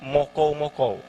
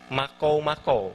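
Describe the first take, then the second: First: The first vowel is a rounded o sound. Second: The first vowel is an open a sound. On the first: This is the Malinau dialect form. "Malinau dia lebih ke mokou-mokou" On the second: This is the widely known form. "bahasa yang halayak ramai kenal adalah makou-makou"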